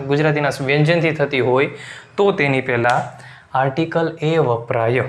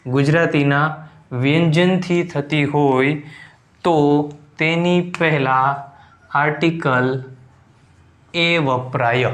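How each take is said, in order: First: Said in the usual way. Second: Slow, drawn-out word-by-word delivery; slow dictation. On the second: Shown as a demonstration. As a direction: dictate the rule slowly, pausing between phrases. Dictating the rule for writing down. (ધીમે ધીમે લખાવતા હોય એમ)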